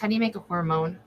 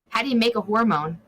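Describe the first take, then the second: First: The question is spoken at a normal, quicker pace. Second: The question is spoken slowly and deliberately.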